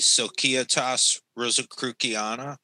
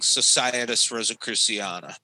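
First: The C sounds are hard, like K. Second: The C sounds are soft, like S. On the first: "do the hard C's" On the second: "everybody just errs on the side of saying"

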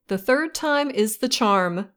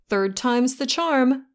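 First: The phrase is said slowly and in full. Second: The phrase is said quickly and run together.

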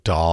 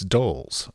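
First: The vowel is short, like in 'dolls'. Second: The vowel is long, like in 'doles'. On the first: This is how other people say the name. The speaker calls it wrong. "everybody's like Dolls" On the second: This is how the name is really said. The speaker calls it right. "It's Dolls"

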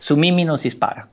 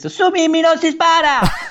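First: The phrase is said calmly, without exclamation. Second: The phrase is yelled, like an exclamation. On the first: The speaker calls it wrong. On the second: The speaker calls it right.

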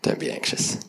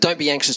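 First: It is said in a gentle, relaxed way. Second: It is said in a pushy, insistent way.

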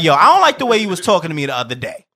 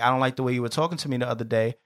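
First: It is said in an aggressive, confrontational tone. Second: It is said in a calm, relaxed tone.

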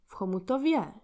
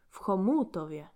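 First: The stress is on the fourth syllable. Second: The stress is on the second syllable.

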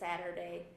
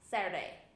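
First: Every syllable is said clearly and fully. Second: The syllables are squashed together into fewer sounds. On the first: "she doesn't say Saturday" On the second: "It's all like really like, smushed together and weird"

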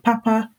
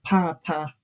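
First: Both syllables are said on a high tone. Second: The first syllable is high, the second low. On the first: It means good. "which has two high tones" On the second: It means father. "that has a high and then a low tone"

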